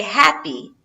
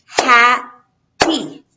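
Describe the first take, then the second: First: Said in the usual way. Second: "happy" split as HAP, pause, PY, louder; two separate syllables. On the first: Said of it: "syllable is the sound of the word". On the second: Shown as a demonstration. Teacher counts syllables for students, "happy" in two separate loud beats. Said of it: "two syllables".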